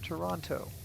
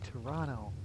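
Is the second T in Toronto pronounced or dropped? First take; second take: pronounced; dropped. First: The second T is pronounced. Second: The second T is dropped. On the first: This is how outsiders say it. The speaker calls it wrong. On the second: This is how locals say it. The speaker calls it right.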